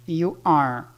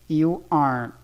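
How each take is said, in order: The two takes are said the same way.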